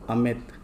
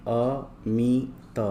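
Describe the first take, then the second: First: Said in the usual way. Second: Very slow अ-मी-त; syllable by syllable. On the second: Shown as a demonstration. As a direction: sound out अमित in separate long syllables. Word broken up before blending.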